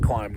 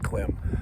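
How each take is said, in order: First: The vowel is a long 'eye' sound. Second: The vowel is a short 'ih' sound. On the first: The speaker calls it right. "It is pronounced climb" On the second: The speaker calls it wrong. "not clim"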